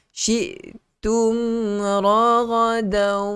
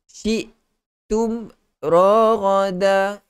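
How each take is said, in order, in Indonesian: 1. Bunyi m jelas dengan sedikit dengung sengau. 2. Bunyi m dipotong pendek dan disembunyikan. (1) "jelaskan sebutan mim" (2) "itu mim tidak sempurna"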